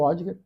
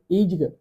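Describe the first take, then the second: First: The name begins with an 'o' vowel. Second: The name begins with an 'ee' vowel. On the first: This is the commonly used form of the name. "vou seguir falando Odger, porque já é o nome comum" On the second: This is how the name is properly pronounced. "se pronuncia Idgar"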